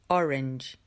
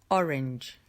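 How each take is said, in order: Both takes have the same delivery.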